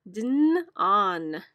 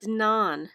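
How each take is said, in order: First: "Dn, on" split into separate sounds; sounding out words. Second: "Dnon" read as one whole performed word; read like an actor. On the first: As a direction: rehearse "Dn" then "on" one chunk at a time. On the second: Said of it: "read it like an actor". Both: Shown as a demonstration.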